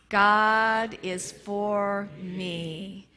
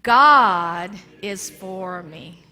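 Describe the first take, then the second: First: The word me is stressed. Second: The word God is stressed.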